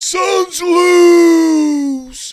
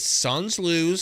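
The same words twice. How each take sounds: First: It is said in a mocking, laughing tone. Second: It is said in a sincere, resigned tone.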